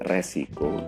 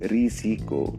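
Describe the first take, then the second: First: The first vowel is an e sound. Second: The first vowel is an i sound. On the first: The speaker calls it wrong. "resiko bukan pelafalan atau tulisan yang tepat" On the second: The speaker calls it right. "pelafalan yang betul"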